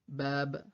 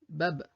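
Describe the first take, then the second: First: The vowel is long and drawn out. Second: The vowel is short and quickly said. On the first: "Mais avec le mad, ça nous donne bab. On prolonge la lettre" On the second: "S'il n'y avait pas ce prolongement, on aurait lu ce mot bab, bab, rapidement"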